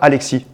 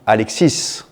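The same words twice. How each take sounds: First: The final s is silent. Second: The final s is clearly pronounced. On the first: The speaker calls it wrong. "on ne dit pas Alexis" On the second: The speaker calls it right. "on dit Alexis"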